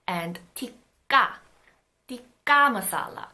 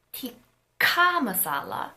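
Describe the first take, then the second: First: Tikka with a tight double k; tensed tikka. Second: Tikka slowly with a strong breathy k; aspirated tikka. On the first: Teacher trying tikka masala with the tensed consonant. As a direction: lock the k hard in tikka. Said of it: "the double consonant sounds the most natural". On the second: Teacher trying tikka masala with the aspirated consonant. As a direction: puff air on the k of tikka. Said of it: "all three of the velar consonants". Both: Shown as a demonstration.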